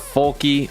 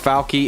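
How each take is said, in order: First: It has two syllables with an o vowel. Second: It has two syllables with an a vowel. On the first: "It's not Folky" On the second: "or Falky"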